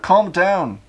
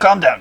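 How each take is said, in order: First: It is said in his normal voice. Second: It is said in a Rickety Cricket voice.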